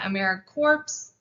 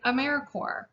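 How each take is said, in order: First: The word ends with an audible 'ps' sound. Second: The word ends in a silent 'ps', like 'core'. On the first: The speaker calls it wrong. "We are not" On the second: The speaker calls it right. "You can say it like the core of the earth or Marine Corps"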